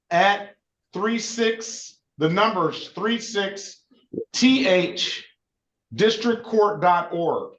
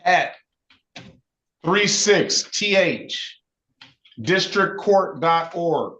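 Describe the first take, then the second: First: Very slow, emphatic dictation; slower dictating. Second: Slow, letter-by-letter dictation; dictating. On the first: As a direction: spell it out even slower, each part separate. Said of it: "can you say it again". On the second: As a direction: spell it out slowly for note-taking. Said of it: "write down your email". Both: Shown as a demonstration.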